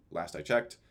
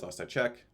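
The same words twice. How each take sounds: First: "checked" said again with a clear final t sound; self-correction. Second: Said in the usual way. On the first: Real, not acted. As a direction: fix it to "checked", ending the word on a crisp t.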